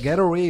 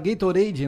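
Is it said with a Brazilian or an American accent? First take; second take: American; Brazilian. First: It is said with an American English accent. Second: It is said with a Brazilian Portuguese accent.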